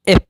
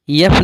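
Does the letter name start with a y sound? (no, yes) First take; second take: no; yes. First: It begins directly with the e vowel. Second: It begins with a y sound before the vowel. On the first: The speaker calls it right. "एफ पढ़ा जाता है" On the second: The speaker calls it wrong. "इसे यफ नहीं"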